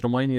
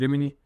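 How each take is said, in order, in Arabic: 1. المقطع الثاني يُنطق مثل 'my'. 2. المقطع الثاني يُنطق مثل 'mee'. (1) "مش ريمايني" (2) "النطق الصحيح ريميني"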